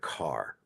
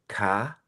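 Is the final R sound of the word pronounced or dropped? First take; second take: pronounced; dropped. First: The final R sound is clearly pronounced. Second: The final R sound is dropped. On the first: This is the older American way of saying it. "we say the word car" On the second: This is the newer British way of saying it. "The British say ca"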